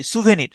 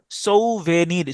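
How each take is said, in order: First: Said in the usual way. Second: "সৌভেনির" slowly, as sou-ve-nir; syllable-by-syllable demo. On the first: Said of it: "এগুলোকে বলা হয় সুভেনির". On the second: Shown as a demonstration. Teacher building the word from its spelling, slow syllable demo. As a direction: stretch "সৌভেনির" out, sounding "sou" as so. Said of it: "তাহলে S O ইউ".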